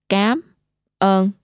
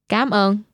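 First: It is said slowly. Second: It is said at normal speed.

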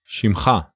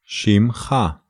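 First: It is said fast. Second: It is said slowly.

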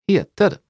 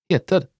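The two takes are said the same way.

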